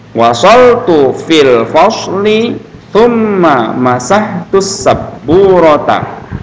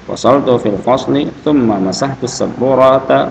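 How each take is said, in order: First: It is read slowly and carefully. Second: It is read quickly and fluently. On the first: "pelan-pelan diulang-ulang" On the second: "kalau udah lancar boleh bacanya cepat"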